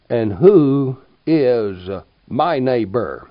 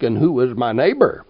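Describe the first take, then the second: First: Slow, every word weighted, WHO hit hardest; emphatic question. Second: Said in the usual way. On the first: Shown as a demonstration. Preacher pressing the congregation, slow and emphatic. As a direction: lean on "who" and draw the whole question out. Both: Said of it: "I ask now with all emphasis".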